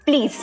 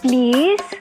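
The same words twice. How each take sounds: First: It is said curtly, like an order. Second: It is said softly and sweetly.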